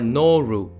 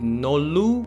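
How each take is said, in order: First: The middle consonant is like an English R. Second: The middle consonant is like an English L. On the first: "or noru" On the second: "It would have sounded nolu"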